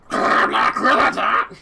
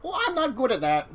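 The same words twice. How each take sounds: First: High, loud, slow bug screech; cockroach voice. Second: High creature voice; squeaky bug monster; cockroach voice. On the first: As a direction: shriek it like a giant cockroach. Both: Acted. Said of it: "I like my cockroach voice".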